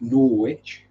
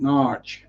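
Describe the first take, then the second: First: It is said with a w sound, Nor-wich. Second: It is said as one syllable, Narch. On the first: This is how Americans say it. "Americans pronounce it Norwich" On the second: This is how locals say it. "locals pronounce it Narch, N A A R C H"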